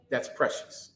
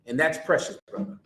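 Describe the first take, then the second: First: Breathy whisper, voice dropped away. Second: Said in the usual way. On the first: Shown as a demonstration. Preacher repeats it to the congregation, whispering. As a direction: hush it, like a secret.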